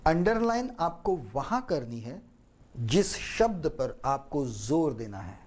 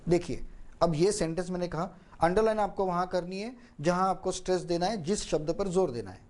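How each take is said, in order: First: underline and शब्द stressed, with a pause after करनी है; paused and stressed. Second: Rushed fast run-through of the sentence; fast version that nobody can follow. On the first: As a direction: cut the sentence into chunks and lean on underline and शब्द. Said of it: "वाक्य को काटा बीच बीच में, अनेक शब्दों पर जोर दिया". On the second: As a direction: rattle it off quickly without pauses. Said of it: "अगर मैंने ये फास्ट कहा होता". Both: Shown as a demonstration.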